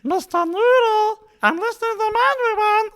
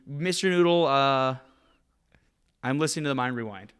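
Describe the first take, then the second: First: It is said in a Kermit voice. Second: It is said in his normal voice.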